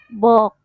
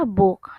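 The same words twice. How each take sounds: First: The vowel is read letter by letter as 'o'. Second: The vowel is a short 'oo' sound. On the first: The reader does not know the word and sounds out the spelling. "kalau anaknya memang nggak tahu itu book, maka dia bacanya akan book" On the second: This is how the word is said in English. "kalau bahasa Inggrisnya kan dibacanya book"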